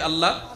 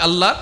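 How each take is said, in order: First: It is said at normal volume. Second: It is said more loudly.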